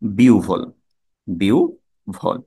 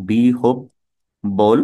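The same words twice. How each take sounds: First: বিউভল said as biu-vhol; correct pronunciation. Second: বিহব্বল drawn out as bi-hob-bol; very slow syllables in বিহব্বল, double b; mistaken pronunciation. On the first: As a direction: model বিউভল, then split it slowly, biu, vhol. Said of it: "শুদ্ধ উচ্চারণ হচ্ছে". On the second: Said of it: "এটা হচ্ছে ভুল". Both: Shown as a demonstration.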